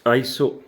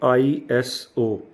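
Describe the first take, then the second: First: It is said as one word, eye-so. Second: It is said as three separate letters. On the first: The speaker calls it right. "हम इसको बोलते हैं आईसोस, आईसो" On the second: The speaker calls it wrong. "Not आईएसओ"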